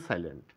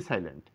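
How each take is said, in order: Both takes have the same delivery.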